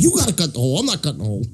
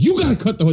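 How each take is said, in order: First: Other voice, dropping softer at end; lightly mimicked client. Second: High, firm demand; insistent yell. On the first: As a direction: echo the order in a borrowed voice. Imitating the client's reply. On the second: Retold or imitated. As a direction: hammer the order home. Boss insisting loudly.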